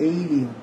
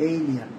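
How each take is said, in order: Both takes have the same delivery.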